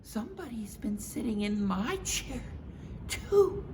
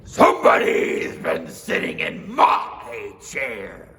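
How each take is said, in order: First: Mama Bear voice. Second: Slow, loud, gruff bear; Papa Bear voice. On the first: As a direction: agree brightly with Papa. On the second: Papa Bear warning his family, slow and loud. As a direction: growl out the warning slowly. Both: Acted.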